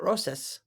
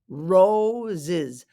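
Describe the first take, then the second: First: The middle consonant is hissed like an S. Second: The middle consonant is buzzed like a Z. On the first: The speaker calls it wrong. "Not roses. ... not two S's" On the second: The speaker calls it right. "It's like there's two Z's"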